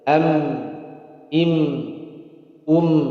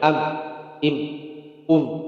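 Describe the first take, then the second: First: The final m sound rings on briefly. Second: The final m sound stops short. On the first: The speaker calls it right. "Ada jalan sedikit juga sama" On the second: The speaker calls it wrong. "Nggak boleh am, im, um. Salah"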